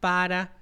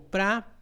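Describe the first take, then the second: First: The word is said in full with two syllables. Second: The word is reduced to one syllable.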